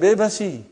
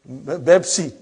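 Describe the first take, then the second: First: The word has three syllables, with an added vowel. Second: The word has two syllables, with b for p. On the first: This is how Indian speakers say it. "those Indian people say? They don't say Bebsi, they say Bebasi" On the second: This is how Arabic speakers say it. "what do you think they call Pepsi Cola in Bebsi?"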